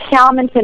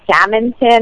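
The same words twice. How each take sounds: First: The first part does not sound like 'salmon'. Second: The first part sounds like the word 'salmon'. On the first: The speaker calls it right. "my last name is Salmonson" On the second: The speaker calls it wrong. "everybody mangles it and says Salmonson"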